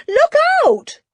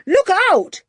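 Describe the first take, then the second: First: Very high, louder second warning yell; desperate warning yell. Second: High, loud sudden warning yell. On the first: Julian screams the warning again as the fist is raised. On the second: Julian yells a warning as Ebenezer rushes at Jeremiah. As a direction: warn someone of a blow coming. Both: Acted. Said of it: "yelled Julian".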